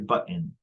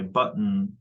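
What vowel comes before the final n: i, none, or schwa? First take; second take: i; none. First: An i vowel is heard before the n. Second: The final n is syllabic, with no vowel.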